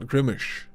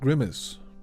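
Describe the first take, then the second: First: The word ends with an sh sound. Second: The word ends with an s sound. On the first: The speaker calls it wrong. "not Grimish, which is the, the Swedish way to pronounce it" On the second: The speaker calls it right. "Grimace is pronounced Grimace"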